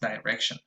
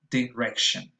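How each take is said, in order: First: The first vowel is reduced to a schwa. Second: The first vowel is a clear full vowel. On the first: "that E becomes a schwa" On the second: "which is supposed to be a lax E"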